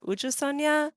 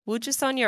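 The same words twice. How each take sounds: First: Uju Sonya, starting on a bare oo vowel; pronunciation demo. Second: Wuju Sonya, starting with a w glide; pronunciation demo. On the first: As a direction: say "Uju Sonya" without any opening w. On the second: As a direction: say "Wuju Sonya" with an opening w sound. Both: Shown as a demonstration. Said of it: "the way I've heard it is".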